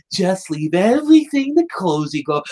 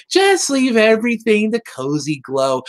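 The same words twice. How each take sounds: First: Cartoonishly sneaky schemer; higher put-on villain voice, like a wicked witch; Cozy Glow. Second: Imitated Cozy Glow. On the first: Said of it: "cartoonishly sneaking along". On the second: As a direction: play a too-sweet little schemer. Imitating Cozy Glow offering help.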